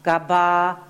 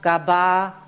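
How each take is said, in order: Both takes have the same delivery.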